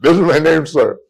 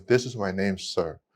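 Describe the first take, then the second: First: Louder and higher, a retold exasperated student; mock-frustrated near-yell of his name; frustrated outburst. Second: Softly mumbled by a shy student; timid quiet reply. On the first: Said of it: "now he's getting frustrated". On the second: Retold or imitated. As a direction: say it meekly, barely audible. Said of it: "I can't hear you".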